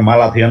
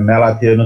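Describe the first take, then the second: First: The first syllable has a plain open 'ma' vowel. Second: The first syllable has a fronted 'mya' vowel. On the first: The speaker calls it wrong. "এটাকে অনেকে মালাথিয়ন বলে" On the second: The speaker calls it right. "এটা ম্যালাথিয়ন উচ্চারণ করবা"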